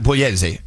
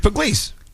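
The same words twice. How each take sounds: First: The name has an Italian pronunciation. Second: The name has an American pronunciation. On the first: This is how it is said in Italy. "if you're in Italy, you you would pronounce it Pugliese there" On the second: This is how it is said here. "but here's Pugliese"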